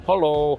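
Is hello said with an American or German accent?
German. Hello is said the German way, like hallo. The speaker sounds like a local.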